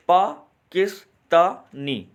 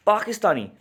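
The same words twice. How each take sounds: First: पाकिस्तानी slowly in four beats, पा - किस - ता - नी; split into syllables. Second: Said in the usual way. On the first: Shown as a demonstration. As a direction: pause after each syllable of पाकिस्तानी. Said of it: "ये कितने syllable में distribute हो रहा". (पाकिस्तानी को चार हिस्सों में तोड़कर, धीरे-धीरे) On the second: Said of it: "ये जो पाकिस्तानी है ये कितने सिलेबल में".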